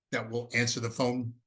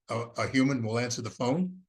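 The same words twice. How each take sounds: First: Said in the usual way. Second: "human" lifted and leaned on with a rise; stress on human. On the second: Real, not acted. Presenter correcting himself to the viewers, stress on human. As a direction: hit the word "human" a little harder.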